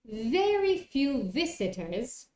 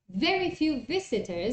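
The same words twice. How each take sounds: First: The phrase is said at a slow pace. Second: The phrase is said at a fast pace.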